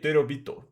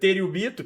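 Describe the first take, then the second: First: It is compressed, closer to Japanese style. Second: It has an extra vowel, Brazilian style. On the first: The speaker calls it right. "pensando no jeito japonês de pronunciar" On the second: The speaker calls it wrong. "que é o jeito nosso brasileiro de falar"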